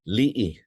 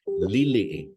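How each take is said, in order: First: The word is said with two syllables. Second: The word is said with three syllables.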